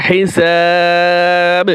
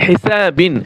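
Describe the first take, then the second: First: হিসাব with long "saaa" and bouncing final b; waqf stop, madd. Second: হিসাবিন with the full "bin" ending sounded; unstopped reading. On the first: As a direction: hold the "sa" of হিসাব, then bounce the b. (লম্বা টানে হিসাব, শেষে বা-তে কলকলা) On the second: (শেষে "বিন" সহ হিসাবিন) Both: Shown as a demonstration. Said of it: "যখন ওয়াকফ করব তখন".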